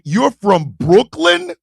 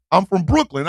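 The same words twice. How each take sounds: First: Slow, rising incredulous question; retold disbelief. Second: Said in the usual way. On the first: He repeats it in disbelief.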